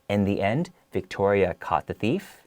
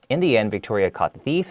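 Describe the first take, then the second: First: It is read slowly with pauses. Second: It is read quickly without pauses. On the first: The listener feels suspense and wants to know more. The speaker calls it right. "you really have to read it slowly" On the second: The listener feels no suspense or triumph. The speaker calls it wrong. "if you just read it really quickly"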